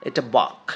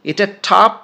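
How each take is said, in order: First: বক as bough, set against টপ; low model word বক; contrast bough. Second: টপ said loud and high for contrast; টপ set against বক; contrast top. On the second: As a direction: stress টপ in a contrast drill. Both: Shown as a demonstration. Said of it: "বানান কিন্তু একই".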